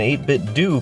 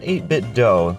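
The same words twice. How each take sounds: First: The last word rhymes with too. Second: The last word rhymes with go. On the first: The speaker calls it right. "you gotta remind people that this is an eight bit do controller" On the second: The speaker calls it wrong. "not eight bit do. ... it's definitely not an adult female deer"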